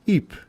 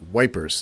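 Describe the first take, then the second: First: The name is said like ee-pruh, without wi. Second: The name is said like the word wipers. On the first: The speaker calls it right. "now with correct pronunciation" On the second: The speaker calls it wrong. "The Brits used to call it wipers"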